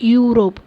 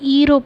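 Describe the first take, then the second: First: The word begins with a 'yoo' sound. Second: The word begins with an 'ee' vowel sound. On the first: The speaker calls it right. "Consonant sound யூ வருது" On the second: The speaker calls it wrong. "Pronounce பண்ணக்கூடாது"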